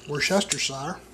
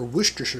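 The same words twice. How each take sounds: First: The word has a non-northeastern regional pronunciation. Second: The word has a northeastern regional pronunciation.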